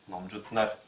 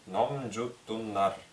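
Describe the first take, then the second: First: It is said quickly with the narrow vowel shortened. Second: It is said slowly with every vowel fully pronounced. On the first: "в быстрой же речи" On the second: "если медленно произносить"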